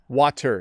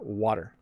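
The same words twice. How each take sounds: First: The middle T is a crisp, clear T. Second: The middle T is a soft, quick flap. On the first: The speaker calls it wrong. "Water is not how we pronounce that word" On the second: The speaker calls it right. "we say water"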